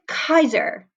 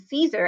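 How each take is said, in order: First: The word begins with a hard K sound. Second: The word begins with a soft S sound. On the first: "with a hard" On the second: "soft C's, like in Caesar, as we would say today"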